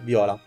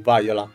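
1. Il nome si pronuncia all'italiana. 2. Il nome si pronuncia all'inglese.

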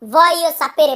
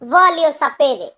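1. প্রথম শব্দে কোনো স্পষ্ট 'L' ধ্বনি নেই। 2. প্রথম শব্দে একটা স্পষ্ট 'L' ধ্বনি আছে। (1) "এখানে ওই এলের উচ্চারণটা আসবে না" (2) "অনেকে আমরা বলি ভলিও সাপেরে"

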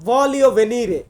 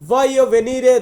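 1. প্রথম শব্দে একটি স্পষ্ট L ধ্বনি আছে। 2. প্রথম শব্দে কোনো L ধ্বনি নেই। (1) "অনেকে বলে এমনটা ভলিও ভেনিরে" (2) "এখানে আর্টিকলের জন্য আমরা লর উচ্চারণটা করব না"

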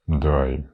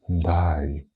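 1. Слово сказано сердитим тоном. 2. Слово сказано сумним тоном. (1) "ти можеш сказати злобно «дай»" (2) "Або ти можеш сказати у відчаї, коли тобі сумно"

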